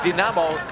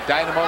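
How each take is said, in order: First: The name is said the Ukrainian way. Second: The name is said the American English way. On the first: This is how it is said locally now. "I guess, the Ukrainian pronunciation" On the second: This is how English speakers have long said it. "for us Americans, right, for years"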